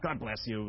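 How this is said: It is said quickly and offhandedly, as a reflex. It is an automatic reply to a sneeze. The speaker calls it wrong. "Not God bless you like you just sneezed"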